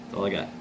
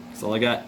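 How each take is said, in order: First: Lower, softer repeat of That's all I got; quiet echo. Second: Said in the usual way. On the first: Real, not acted. Son sums up his father's legacy to viewers, quiet resigned echo.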